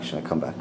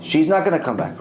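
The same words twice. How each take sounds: First: Low, soft counter-ruling; Rav Ovadia insisting. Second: Firm refusal in the speaker's own pitch; other judge insisting. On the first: Rav Ovadia overruling the other judge, low and quiet. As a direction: drop deep and quiet to overrule. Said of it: "Rav Ovadia says". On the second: The other judge arguing against Rav Ovadia, firm. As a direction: insist she stays dead. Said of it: "He's arguing with him". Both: Retold or imitated.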